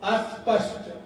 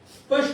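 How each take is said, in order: First: A short vowel is added before the s sound. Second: The word begins directly with the s sound. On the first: The speaker calls it wrong. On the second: The speaker calls it right. "स्पष्ट नहीं बोलेंगे"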